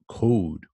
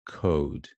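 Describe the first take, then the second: First: The vowel is said with strong lip rounding. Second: The vowel is said with moderate lip rounding. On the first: "this one is very round" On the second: "this one is becoming a bit rounder"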